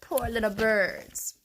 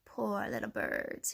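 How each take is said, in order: First: Slow, lightly voiced mock pity; hungry fox. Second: Low, soft, slow fox; smirking. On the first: Teacher reviewing the fox's words, slow mock pity. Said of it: "he licked his lips and he said". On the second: Fox eyeing the birds, smirking softly. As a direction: drop it down into sly mock pity. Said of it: "he smirked". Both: A narrator's reading.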